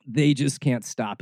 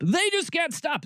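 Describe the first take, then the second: First: Said in the usual way. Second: They just can't stop, pitched high in mock exasperation; exasperated high. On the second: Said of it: "repeated with exasperation".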